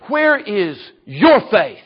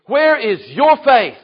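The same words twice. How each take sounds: First: Slow, measured, lean on your; slow searching question. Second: Higher, louder, still slow, punch your; Jesus pressing the disciples harder; emphatic repeat. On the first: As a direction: ask it gently, letting each word land. Jesus questions the frightened disciples. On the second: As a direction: press the question home with force. Jesus repeats his rebuke. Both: Acted.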